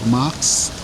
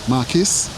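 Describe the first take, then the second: First: The surname is said as one syllable. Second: The surname is said as two syllables. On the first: The speaker calls it wrong. "I have this pronunciation wrong" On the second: The speaker calls it right. "but it's Matthew Marquis"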